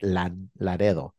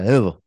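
First: The middle consonant is a rolled r. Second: The middle consonant sounds like a d. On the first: The speaker calls it right. "Because you're rolling your R" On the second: The speaker calls it wrong. "I used to say, Ladedo"

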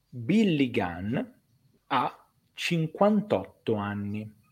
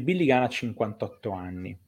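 First: The sentence is spoken slowly and deliberately. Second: The sentence is spoken at a normal pace.

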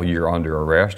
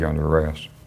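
First: It is said loudly, like a yell. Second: It is said very quietly.

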